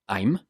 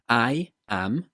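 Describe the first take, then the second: First: The words join into one short syllable. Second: Two separate words are said in full.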